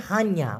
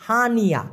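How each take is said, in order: First: হানিয়া joined as han-ya; correct pronunciation. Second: হানিয়া split as ha-ni-ya; common mispronunciation. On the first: Teacher correcting learners, হানিয়া said as han-ya. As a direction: say হানিয়া in two syllables, han-ya. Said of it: "উচ্চারণটা হওয়া উচিত হচ্ছে". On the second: Teacher showing learners how many say it, হানিয়া as ha-ni-ya. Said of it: "এইভাবে উচ্চারণ করে". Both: Shown as a demonstration.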